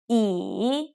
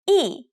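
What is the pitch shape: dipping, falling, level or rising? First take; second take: dipping; falling. First: The pitch dips down and then rises. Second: The pitch falls sharply from high to low.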